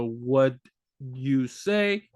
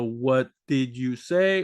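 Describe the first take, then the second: First: Clipped casual form. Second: Slow full form. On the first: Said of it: "or the". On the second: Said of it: "understand the". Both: Shown as a demonstration.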